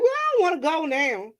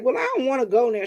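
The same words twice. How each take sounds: First: Higher, whiny refusing mother; higher mock whine; mocking mom. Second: Said in the usual way. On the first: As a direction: mimic mom digging in.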